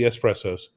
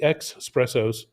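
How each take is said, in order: First: The word begins with an 'ess' sound. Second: The word begins with an 'ex' sound. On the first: The speaker calls it right. "That's how you pronounce it correctly" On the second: The speaker calls it wrong. "Don't go for the X espressos"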